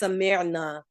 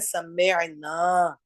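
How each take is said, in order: First: The final vowel is short. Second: The final vowel is long. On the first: A group of women heard. "आइन साकिन हुआ और नून जबर वाला लग गया" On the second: We heard. "सिर्फ एक अलिफ हरफ मद्दा का फर्क है"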